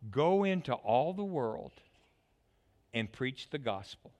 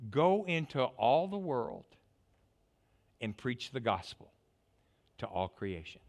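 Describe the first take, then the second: First: Said in the usual way. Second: Solemn commission. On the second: Acted. Preacher quoting Jesus' command.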